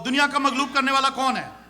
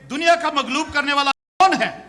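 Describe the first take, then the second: First: It is read flatly, like a plain statement. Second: It is read with a questioning tune. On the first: It reads as a plain declaration. The speaker calls it wrong. "हम सीधा सीधा पढ़ते हैं ना" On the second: It asks who overcomes the world. The speaker calls it right. "इसको सवालिया अंदाज में पढ़ना है"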